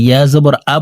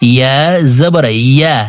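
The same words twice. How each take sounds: First: Quick ইয়া জবর আ ending on bare আ, no y; ইয়া misread as hamza. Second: Careful ইয়া with a clear y from the middle of the tongue. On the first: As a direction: show the slip, hamza-like আ in place of ya. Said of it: "হামজার উচ্চারণ করে থাকি". (ইয়া-র বদলে হামজার আ) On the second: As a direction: teach ইয়া with a distinct y glide, unhurried. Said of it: "জিহ্বার মধ্যখান থেকে পড়তে হবে". (ইয়া জিহ্বার মধ্যখান থেকে) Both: Shown as a demonstration.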